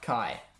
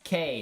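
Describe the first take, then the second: First: The name rhymes with eye. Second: The name rhymes with day. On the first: The speaker calls it wrong. "not Kai" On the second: The speaker calls it right. "Kai's pronunciation is K"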